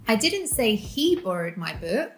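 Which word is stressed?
he. The stress falls on the word 'he'. Someone else borrowed it. "She did"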